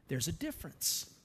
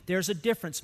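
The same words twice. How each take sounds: First: Much softer, lower, letting "difference" land quietly; hushed. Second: Said in the usual way. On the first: Acted. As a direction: drop to a near hush to make the point. Hushed point after God's words.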